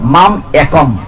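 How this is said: The break falls after mam, before ekam. The speaker calls it right.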